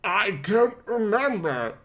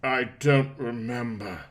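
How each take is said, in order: First: Croaking. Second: Said in the usual way. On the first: A narrator's reading. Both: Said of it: "Bruce croaked".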